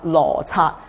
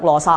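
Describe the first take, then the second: First: The second syllable sounds like 刷, caat. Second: The second syllable does not sound like caat. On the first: The speaker calls it right. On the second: The speaker calls it wrong.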